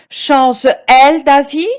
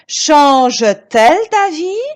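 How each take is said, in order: First: Change runs straight into elle with no t. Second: A t sound links change and elle. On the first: The speaker calls it wrong. "Est-ce que je peux dire change-elle d'avis? Non" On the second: The speaker calls it right. "J'ajoute un T"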